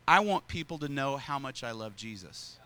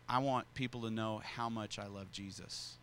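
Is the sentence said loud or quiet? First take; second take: loud; quiet. First: The sentence is said at a louder volume. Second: The sentence is said at a quieter volume. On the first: Everyone at the table could hear it. "I said it even louder" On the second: The listeners could not hear it. "I said it this way"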